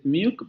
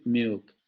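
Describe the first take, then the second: First: "milk" with a clear L; "milk" with the L sounded fully; standard milk. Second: "milk" as "muk", the L gone to a vowel; vocalized L. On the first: Teacher demonstrating the standard "milk". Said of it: "En lugar de decir milk". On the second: Teacher showing the Australian "milk". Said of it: "van a decir milk". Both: Shown as a demonstration.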